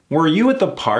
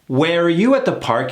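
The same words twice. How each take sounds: First: The vowel in 'were' is reduced. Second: The vowel in 'were' is pronounced fully. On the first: "Let's kill that vowel" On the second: "Something off about that"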